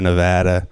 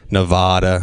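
First: It is pronounced in an ordinary way. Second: It is pronounced in a fancy-sounding way. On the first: The speaker calls it right. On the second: The speaker calls it wrong.

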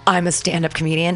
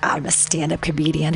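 First: It is said confidently, as a sincere claim. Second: It is said doubtfully, mocking the claim.

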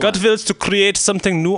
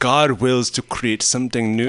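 First: It is read in an exaggerated German accent. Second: It is read in the speaker's normal accent.

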